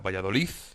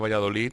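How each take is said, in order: First: The word ends with a th-like sound. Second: The word ends with a plain d sound. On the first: "se pronuncia Valladolid" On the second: "en lugar de Valladolid"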